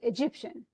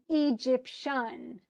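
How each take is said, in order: First: The stress is on the middle syllable. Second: The stress is on the first and third syllables. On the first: The speaker calls it right. "the emphasis should be on the middle syllable" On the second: The speaker calls it wrong. "they totally use the wrong"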